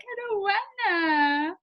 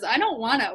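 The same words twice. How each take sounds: First: High, very slow whimpering wail; dinosaur whine. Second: Said in the usual way. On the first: Retold or imitated. Couple answering each other, dinosaur whine. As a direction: answer like the whining dinosaur kid. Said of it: "We're like". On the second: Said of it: "whenever somebody says".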